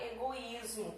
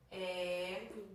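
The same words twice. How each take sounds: First: Said in the usual way. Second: "Egoísmo" split into e, go, ís, mo; slow dictated "Egoísmo", pause before the last syllable. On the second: Shown as a demonstration. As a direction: stretch and separate each syllable of "Egoísmo". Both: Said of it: "Vamos separar egoísmo".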